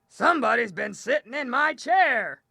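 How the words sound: It is said in a deep growl.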